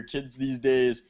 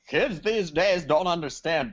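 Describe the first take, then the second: First: Said in the usual way. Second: Higher-pitched mock curmudgeon; hammed-up old-timer grousing. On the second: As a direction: grumble like an old-timer about the youngsters. Mock old-timer rant about today's kids.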